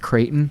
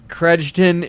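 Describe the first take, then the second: First: The name is said without the extra sound. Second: The name has an extra hard d sound.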